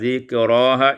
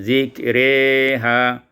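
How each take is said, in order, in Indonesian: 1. Vokal setelah r adalah a terbuka. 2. Vokal setelah r condong ke e.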